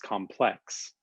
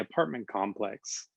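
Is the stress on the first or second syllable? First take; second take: second; first. First: The stress is on the second syllable. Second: The stress is on the first syllable.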